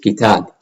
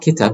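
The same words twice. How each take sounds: First: The second vowel is held long. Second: The second vowel is short and clipped. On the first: The speaker calls it right. "it is kitab" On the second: The speaker calls it wrong. "this is not kitab"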